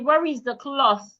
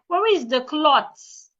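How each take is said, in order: First: Cloth ends with a voiceless th sound. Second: Cloth ends with a plain t sound. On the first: The speaker calls it right. "Put your tongue outside and say" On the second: The speaker calls it wrong. "It is not clots. The T H should not be pronounced like a T"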